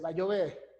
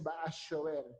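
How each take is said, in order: First: It is spoken in a Colombian paisa accent. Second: It is spoken in an Argentine accent. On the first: "un colombiano dice va a llover, va a llover paisa" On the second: "un argentino dice"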